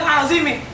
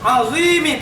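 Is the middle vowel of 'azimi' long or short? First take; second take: short; long. First: The middle vowel is short. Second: The middle vowel is long. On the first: The speaker calls it wrong. "bukan azimi" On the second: The speaker calls it right. "Azimi panjang"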